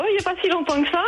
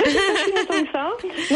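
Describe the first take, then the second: First: Said in the usual way. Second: Slow, laughing through the words. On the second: Real, not acted. Caller admits to the hosts she just woke, laughing. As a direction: chuckle it out, a bit embarrassed. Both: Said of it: "caller repeats her wake-up answer".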